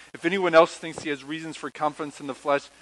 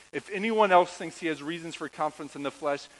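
Both takes have the same delivery.

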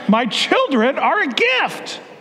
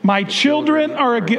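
First: It is said with strong, believing conviction. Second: It is said plainly, without much conviction.

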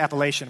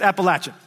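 First: It is said the way outsiders say it. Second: It is said the local Appalachian way.

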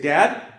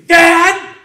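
First: It is a calm, questioning call. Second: It is a panicked, frantic shout.

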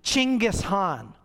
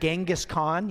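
First: The name begins with a 'ch' sound. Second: The name begins with a 'j' sound. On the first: The speaker calls it right. "His name is actually Chinggis Khan" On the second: The speaker calls it wrong. "we've been saying it wrong the whole time"

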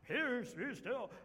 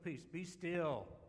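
First: It is shouted in a grand, dramatic way. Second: It is said calmly, with mild annoyance. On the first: He is a heroic figure commanding the storm. The speaker calls it wrong. "I don't think he shouted it, like in the movies where he's sort of this heroic figure" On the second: He is unbothered, merely annoyed by the waves. The speaker calls it right. "He's just so cool. ... Like he's just annoyed with the waves"

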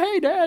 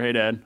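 First: The greeting sounds eager and excited. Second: The greeting sounds flat and indifferent. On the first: The greeting shows real delight at seeing him. "they surprise me and they run in" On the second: The greeting is routine and casual.

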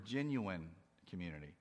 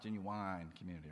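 First: It is said in a plain, standard accent. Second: It is said in a Southern American accent.

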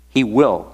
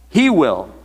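First: The stress is on the word will. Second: The stress is on the word he.

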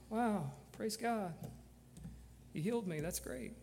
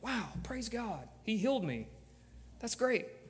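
First: It is said flatly, without enthusiasm. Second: It is said with excited enthusiasm.

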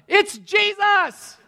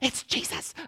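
First: It is shouted very loudly. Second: It is said quietly.

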